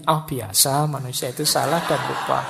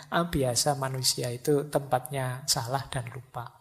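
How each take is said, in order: First: Same reassurance, a bit firmer with a laugh; mock nonchalance on a repeated slip; different intonation. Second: Mildly unbothered, tailing off softer; easygoing self-reassurance. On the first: Positive thinker forgetting the key again, half-laughing reassurance. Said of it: "cuma intonasinya yang agak berbeda". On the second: Acted. Positive thinker shrugging off a forgotten key, easygoing. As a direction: accept the slip softly, letting the pitch settle. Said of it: "Kalau yang positif kan ndak sedasar itu".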